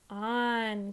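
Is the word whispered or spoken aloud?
aloud. It is spoken in a normal voice.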